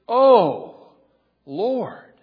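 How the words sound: It is said with strong, deep emotion. The speaker calls it right. "There's emotion there"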